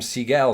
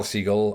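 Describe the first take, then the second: First: "Siegel" as see-GELL, weight on the end; stress on second syllable. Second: "Siegel" as SEE-gull, reduced ending; stress on first syllable. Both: Shown as a demonstration. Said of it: "Siegel or Siegel?".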